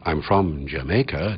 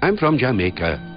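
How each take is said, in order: First: Strong stressed beats alternate with weak syllables. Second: Every syllable gets an even, equal beat.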